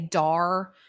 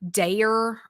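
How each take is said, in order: First: The name rhymes with car. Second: The name rhymes with care. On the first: This is how they usually say it. "We usually say Dar" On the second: Someone else told them to say it this way. "somebody has said that it's like Dare"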